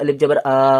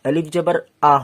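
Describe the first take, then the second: First: The final vowel is drawn out long. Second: The final vowel is short. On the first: The speaker calls it wrong. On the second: The speaker calls it right.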